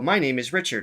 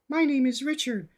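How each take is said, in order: First: It is spoken in a low, resonant chest voice. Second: It is spoken in a higher head voice. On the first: "chest voice. He, if you just speak, you can feel a vibration in your chest" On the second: "If I go into head voice"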